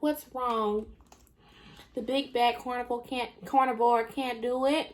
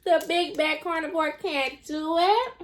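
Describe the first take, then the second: First: Sarcastic taunt. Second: Mock taunt pitched up, relishing it; sarcastic taunt, higher. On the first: Retold or imitated. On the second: Lola relishing mocking Jen, sing-song sarcastic taunt. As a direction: tease like a smug villain. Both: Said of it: "being so sarcastic".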